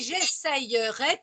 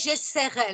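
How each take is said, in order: First: The middle has a clear y glide sound. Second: The middle has no clear y glide sound. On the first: "tu l'écris avec le Y" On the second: "le Y devient un I et on dit j'essaierai. La phonétique change légèrement"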